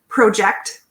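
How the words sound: It is said with a Canadian accent. "I say project"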